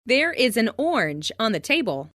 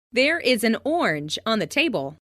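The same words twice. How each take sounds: The two takes are said the same way.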